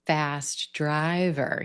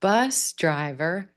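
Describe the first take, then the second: First: Fast driver, driver stressed and falling; very slow, weight on driver. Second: Slow, punch bus; stress on bus. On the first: Teacher repeating the adjective phrase, stress on driver. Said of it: "shift that stress to driver". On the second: Teacher repeating the compound, stress on bus. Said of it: "stress on the first word". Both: Shown as a demonstration.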